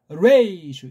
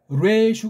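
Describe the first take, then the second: First: It is said with an extra 'i' glide after 're'. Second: It is said with a plain 're' and no glide. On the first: The speaker calls it wrong. "어영부영 그냥 모음도 아닌 소리를 집어넣어가지고" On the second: The speaker calls it right. "레슈가 더 난지도 모르겠어요"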